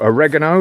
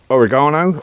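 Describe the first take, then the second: First: It is said with a North American pronunciation. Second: It is said with a British pronunciation.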